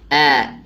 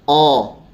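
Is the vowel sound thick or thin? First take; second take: thin; thick. First: The vowel is thin and relaxed, like a. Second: The vowel is thick and rounded, like o. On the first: The speaker calls it right. "Yang benar adalah A" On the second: The speaker calls it wrong. "Nggak boleh kita bacanya O ya"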